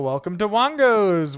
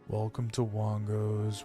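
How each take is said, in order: First: It is said with high, enthusiastic energy. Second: It is said with calmer, lower energy.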